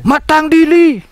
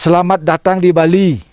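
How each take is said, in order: First: The phrase is chopped into short clipped fragments. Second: The phrase is said in full, at normal pace. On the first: This is how a demonic spirit speaks. "Kalau bahasa butenya terpotong-potong dia" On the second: This is how an ordinary human speaks. "kalau bahasa manusianya"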